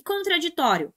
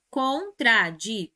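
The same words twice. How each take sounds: First: Said in the usual way. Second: Contraditório slowly as con-tra-di-tó-rio, TÓ stressed; split into syllables. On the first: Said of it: "O que nós temos aqui é". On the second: Shown as a demonstration. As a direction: count out each syllable of contraditório. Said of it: "penúltima".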